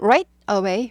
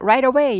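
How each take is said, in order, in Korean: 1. 두 단어를 끊어서 말해요. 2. 두 단어를 끊지 않고 빠르게 이어서 말해요. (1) "딱 끊는 게 정석입니다" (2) "빨리빨리 하다 보면 right away 이렇게 해도 돼요"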